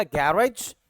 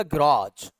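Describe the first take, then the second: First: गैरेज as "GA-raj"; American first-syllable stress. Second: गैराज as "gi-RAAJ"; British last-syllable stress. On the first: Teacher contrasting American गैरेज, front-stressed. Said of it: "American पढ़ेगा". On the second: Teacher contrasting British गैराज, end-stressed. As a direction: stretch the final राज in गैराज. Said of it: "British पढ़ेगा". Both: Shown as a demonstration.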